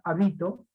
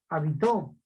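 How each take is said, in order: First: The stress is on the middle syllable. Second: The stress is on the last syllable. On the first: "y no voy a pronunciar habito" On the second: "ni voy a pronunciar habitó"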